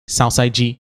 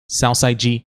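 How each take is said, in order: The two takes are said the same way.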